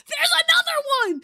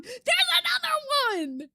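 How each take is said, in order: First: High, loud squeal of delight; pitched way up and louder, near a cry; excited shriek. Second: High but a bit less loud; high squeal easing off; excited repeat. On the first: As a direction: shriek as a new otter pops up. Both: Real, not acted. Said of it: "This is so exciting".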